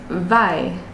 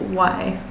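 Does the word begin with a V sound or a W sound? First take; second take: V sound; W sound. First: The word begins with a V sound. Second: The word begins with a W sound. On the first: The speaker calls it wrong. "someone who's just learning English say vai" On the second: The speaker calls it right. "instead of why"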